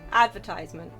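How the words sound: It is said the American English way. "In American"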